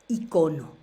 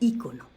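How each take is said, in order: First: The stress is on the second syllable. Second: The stress is on the first syllable. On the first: The speaker calls it right. "La forma como debemos de decir es icono" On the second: The speaker calls it wrong. "se le ha puesto tanto este, este, este acento a la palabra icono"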